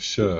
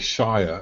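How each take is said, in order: First: It sounds like 'sure', with a short reduced vowel. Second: It rhymes with 'fire', with a long vowel. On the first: The speaker calls it right. "instead of Sure" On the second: The speaker calls it wrong. "Americans often say Shire as if it's from Lord of the Rings"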